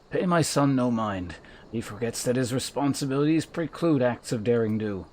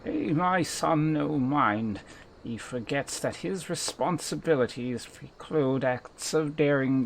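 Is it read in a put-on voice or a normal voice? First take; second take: normal; put-on. First: It is read in the speaker's normal voice. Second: It is read in a put-on Victor Saltzpyre-like voice.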